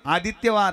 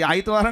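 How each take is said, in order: First: The word is said in full, every syllable clear. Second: The word is shortened, with middle sounds dropped. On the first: The speaker calls it right. "आदित्यवार आहे" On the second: The speaker calls it wrong. "आईतवार नाही तो"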